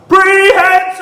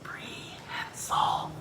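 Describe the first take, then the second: First: The word is said very loudly. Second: The word is said very quietly.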